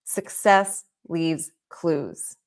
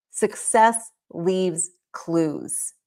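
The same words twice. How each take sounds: First: The motto, slow and lower; slow emphasis. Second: Very slow, each word weighted; a slow, weighty motto; slow emphasis. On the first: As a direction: say it slowly again, letting it land. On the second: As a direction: drag it out for impact. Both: Shown as a demonstration. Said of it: "Hear me on that".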